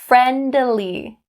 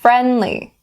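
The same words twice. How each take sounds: First: The D sound is fully released. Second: The D sound is stopped, not released. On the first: The speaker calls it wrong. "We don't say friendly. We don't say it like that. It sounds awkward" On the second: The speaker calls it right. "Stop the D and say friendly"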